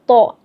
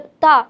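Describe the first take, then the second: First: The syllable is heavy, with a full, thick sound. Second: The syllable is light, with a thin sound. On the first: The speaker calls it right. "तो के ऊपर ज़बर है तो हम पढ़ेंगे तो ज़बर तो" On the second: The speaker calls it wrong. "उसको हम पढ़ देंगे तो ज़बर ता, तो वो गलत है"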